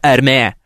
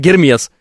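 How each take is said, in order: First: The word begins with a vowel and has no s. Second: The word begins with g and ends in s. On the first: This follows the French manner. "они говорят на французский манер Эрме" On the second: It is named after the god. "в честь того самого Гермеса, Гермес"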